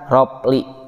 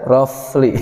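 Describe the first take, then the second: First: The middle consonant is a p sound. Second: The middle consonant is an f sound. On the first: The speaker calls it wrong. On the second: The speaker calls it right.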